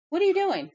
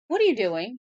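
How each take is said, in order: First: Much higher, loud squeal of disbelief; shrieking at the dog's mischief; high scold. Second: Loud, higher call at the dog; scolding the dog. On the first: Owner scolding her dog again, much higher and loud. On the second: Owner catching her dog in the act, loud scold. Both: Real, not acted.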